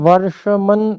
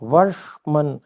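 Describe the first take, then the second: First: A vowel is heard after the sh sound. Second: The sh sound joins the m with no vowel. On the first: The speaker calls it wrong. "इसमें वर्षमन ऐसा मुझे सुनाई दिया" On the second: The speaker calls it right. "मूर्धन्य शकार जो है उसको हलंत लाना है"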